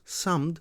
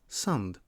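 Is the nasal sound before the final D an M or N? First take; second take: M; N. First: The sound before the D is an M. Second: The sound before the D is an N. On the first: This is the older form before the sound change. "pronounce an N sound instead of an M sound" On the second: This is the newer form after the sound change. "samd becomes sand"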